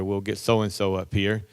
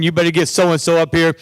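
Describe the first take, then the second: First: Quieter, lower calm reply. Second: Loud, higher demand; demanding students. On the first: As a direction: settle them down. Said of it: "take things very calmly". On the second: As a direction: kids insisting loudly. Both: Retold or imitated.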